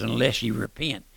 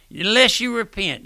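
First: Said in the usual way. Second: Higher and louder second time, driving it home; emphatic loud repeat. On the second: Acted. Preacher warning listeners to repent, raised higher and louder. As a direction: hammer the warning up high.

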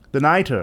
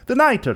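First: Said in the usual way. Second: Raised pitch for Fortunato, the nitre. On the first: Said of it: "I said". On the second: A narrator's reading. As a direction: lift the voice for the jester, coughing man's reply. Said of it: "he said".

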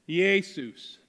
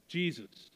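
First: Jesus said as "ay-soos", Greek style; Greek pronunciation. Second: Said in the usual way. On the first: Shown as a demonstration. Preacher sounding out the Greek name for the congregation, careful. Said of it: "I can't even read it here". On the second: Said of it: "This said Jesus".

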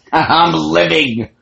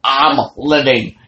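First: Loud, slow, high victory cry; triumphant shout. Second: Loud gleeful repeat, a bit quicker; same cry, a little less high; triumphant shout. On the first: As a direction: savour it, loud and drawn out. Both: Retold or imitated. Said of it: "And she's".

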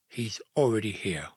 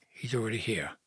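First: "already" picked out in disbelief; baffled echo. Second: Soft, halting confession; hushed admission. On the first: Joseph repeating Mary's news, baffled, leaning on "already". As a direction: echo "he's already here" as a puzzled query. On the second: Mary confessing to Joseph, hushed and reluctant. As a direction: let it out softly, almost under the breath. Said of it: "she whispered". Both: A narrator's reading.

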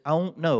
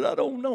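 First: "I don't know" run together as one word, the d dropped; Oklahoma one-word slur. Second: Said in the usual way. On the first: Shown as a demonstration. Crying boy answers dad, "I don't know" slurred into one Oklahoma word. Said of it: "one word". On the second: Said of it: "Well, actually, I said".

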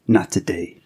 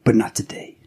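First: Breathy unvoiced whisper. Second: Said in the usual way. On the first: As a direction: breathe it like a haunting voice. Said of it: "that insidious whisper". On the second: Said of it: "film noir inspired intro".

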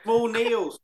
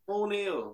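First: Small stressed, pitch a little raised; Small Neil said as a pointed correction; correcting to small Neil. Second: Small Neil muttered much softer; small Neil trailing off quietly; softer repeat. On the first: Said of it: "correcting little Nick". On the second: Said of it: "repeated correction". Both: Real, not acted.

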